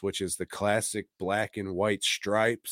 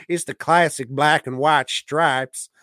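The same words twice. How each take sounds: First: Said in the usual way. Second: Classic hit louder and higher; stress on classic. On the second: Shown as a demonstration. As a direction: punch "classic" and land "stripes".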